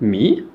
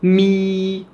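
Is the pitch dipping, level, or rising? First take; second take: rising; level. First: The pitch rises from low to high. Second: The pitch stays high and level. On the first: "une intonation montante du grave vers l'aigu" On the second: "L'important c'est de tenir la note"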